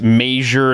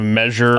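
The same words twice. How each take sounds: First: It has a Nebraska regional pronunciation. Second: It has the standard general pronunciation. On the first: "In Nebraska, it's measure" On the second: "instead of measure"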